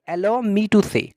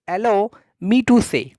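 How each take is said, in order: First: Said in the usual way. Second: "Allow me to say" drawn out word by word; slow model phrase. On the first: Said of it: "क्या बोलेंगे?". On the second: Shown as a demonstration. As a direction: dictate "Allow me to say" slowly. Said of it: "आप कहेंगे कि". ("Allow me to say" धीरे-धीरे)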